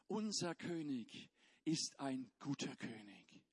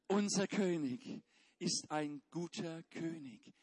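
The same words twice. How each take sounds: First: It is said in a plain, neutral way. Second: It is said with strong, believing conviction. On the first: "wir sagen das zusammen" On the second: "Jetzt noch eine Prise Glauben dazu"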